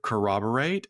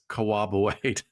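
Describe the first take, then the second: First: The r sounds in the word are pronounced. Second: The r sounds in the word are dropped. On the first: The speaker calls it right. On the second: The speaker calls it wrong.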